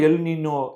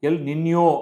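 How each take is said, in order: First: The second word is said with a plain n sound. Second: The second word is said with an ny sound. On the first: The speaker calls it wrong. "அதை எல்லாம் El நினோ அப்படின்னு சொல்றாங்க" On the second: The speaker calls it right. "எல் நின்யோ அப்படின்னு சொல்லணும்"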